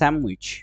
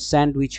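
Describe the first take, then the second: First: The d sound is left out. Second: The d sound is clearly pronounced.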